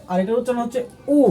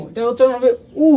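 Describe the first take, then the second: First: A quicker, softer উ with a rising tune; the other Korean u. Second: উ rounded, with a rising tune; Korean vowel u. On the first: Teacher contrasting two Korean উ vowels for learners. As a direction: say this উ a little differently. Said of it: "একটু তফাৎ আছে". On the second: Teacher shows how the Korean vowel উ sounds. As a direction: say উ clearly, rising. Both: Shown as a demonstration.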